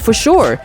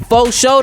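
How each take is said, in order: First: The second word ends with a plain 'sure' sound. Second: The second word is clipped to sound like 'show'. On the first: The speaker calls it right. "You could have even said it regularly" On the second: The speaker calls it wrong. "you said it so bogusly"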